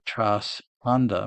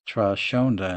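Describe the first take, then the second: First: The s and h are said apart. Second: The s and h blend into one sound. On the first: "breaking up the S and the H" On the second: "SH together would be Trashonda"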